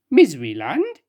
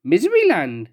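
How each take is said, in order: First: Rising, puzzled "Miseryland?"; surprised question. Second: Said in the usual way. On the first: Acted. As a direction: echo "Miseryland?" in disbelief.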